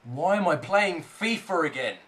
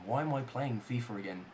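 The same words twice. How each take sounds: First: Voiced-up complaint with falling tune; exasperated questioning. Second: Soft, low, weary self-questioning; deflated grumble. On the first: Gamer questioning his return to fifa, exasperated. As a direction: ask it aloud in exasperation. Asks again, louder exasperation. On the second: Gamer asking himself why he plays, deflated grumble. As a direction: ask it quietly to yourself, deflated. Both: Real, not acted.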